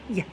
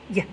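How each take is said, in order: The two takes are said the same way.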